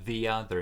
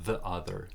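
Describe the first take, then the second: First: The word 'the' has a long ee vowel. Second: The word 'the' has a short uh vowel. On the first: The speaker calls it right. "because this is a vowel, we have a long E" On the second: The speaker calls it wrong.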